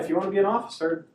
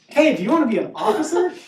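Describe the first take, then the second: First: It is said flatly, without energy. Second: It is said with more enthusiasm and energy.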